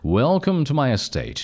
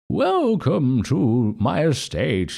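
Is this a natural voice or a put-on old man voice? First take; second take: natural; old man. First: It is said in a natural, unaltered voice. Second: It is said in a put-on old man voice.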